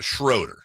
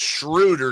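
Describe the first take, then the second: First: The first syllable sounds like 'shrow'. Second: The first syllable sounds like 'shrew'. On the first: The speaker calls it wrong. "not Schroeder" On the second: The speaker calls it right. "it's pronounced Schroeder"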